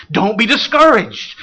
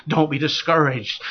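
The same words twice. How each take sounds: First: Louder, pressing "Don't be discouraged" to the crowd; firm exhortation. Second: Gentle reassurance. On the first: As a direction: push "Don't be discouraged" out to rouse them. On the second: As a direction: drop the voice and comfort them with "Don't be discouraged". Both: Real, not acted.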